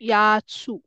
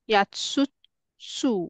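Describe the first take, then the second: First: The final syllable is said once, held long. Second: The final syllable is said twice over. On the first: The speaker calls it right. "सूचा उच्चार प्रोलॉंग आहे" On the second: The speaker calls it wrong. "यात्सुत्सू नाहीये ऍक्च्युली"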